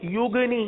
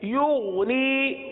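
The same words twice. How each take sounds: First: The middle consonant is a hard, bouncing q. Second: The middle consonant is a soft gh. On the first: The speaker calls it wrong. "गैन के बजाय हमने गाफ पढ़ लिया और ... कलकला भी कर दिया" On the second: The speaker calls it right. "युगनी की अदायगी वैसी करेंगे जैसे ऊग की अदायगी की थी"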